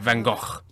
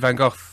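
First: The name is said with a Dutch-style pronunciation. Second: The name is said with an English pronunciation. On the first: The speaker calls it right. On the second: The speaker calls it wrong.

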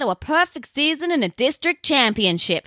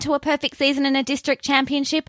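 First: It is spoken in a Southern American accent. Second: It is spoken in the speaker's natural accent.

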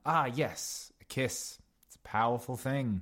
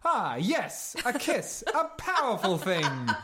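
First: It is said in a plain, natural way. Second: It is said in an exaggerated pantomime way.

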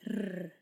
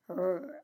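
First: The R is said the Swedish way. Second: The R is said the American way, further back.

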